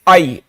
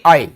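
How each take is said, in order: First: It sounds like a cry of pain. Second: It sounds like a plain, calm word. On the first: The speaker calls it wrong. "आई तो तब होता है mummy जोर से मारती है" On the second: The speaker calls it right. "आई नहीं"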